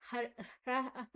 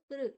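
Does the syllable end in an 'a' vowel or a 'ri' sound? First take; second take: a vowel; ri sound. First: The syllable ends with an 'a' vowel. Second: The syllable ends with a 'ri' sound. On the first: The speaker calls it wrong. "ಹ್ರ ಅಲ್ಲ" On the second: The speaker calls it right. "ಅದು ಹೃ, ಹ ಮತ್ತೆ ಋಕಾರ"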